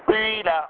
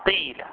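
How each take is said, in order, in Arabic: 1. الحركة الأولى ee مع لمسة من oo. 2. الحركة الأولى صوت ee خالص. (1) "إشمام الكسر شيئا من الضم" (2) "كسر ما قبل الألف فتنقلب الألف ياء"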